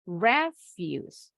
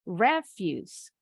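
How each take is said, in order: First: The stress is on the first syllable. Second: The same.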